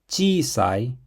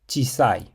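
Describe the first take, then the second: First: The first vowel is held long. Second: The first vowel is cut short. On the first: The speaker calls it right. "Make sure you prolong the vowel so it's pronounced chisai" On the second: The speaker calls it wrong. "and not chisai"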